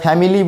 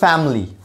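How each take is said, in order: First: A vowel is heard between the m and l. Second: No vowel is heard between the m and l. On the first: The speaker calls it wrong. "আমরা ফ্যামিলি বলি, কিন্তু ই উচ্চারণটা হবে না" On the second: The speaker calls it right. "আমাকে বলতে হবে ফ্যামিলি। ... এখানে আইটা নেই"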